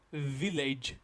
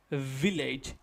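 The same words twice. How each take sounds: Both takes have the same delivery.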